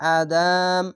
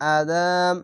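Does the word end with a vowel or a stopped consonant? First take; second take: consonant; consonant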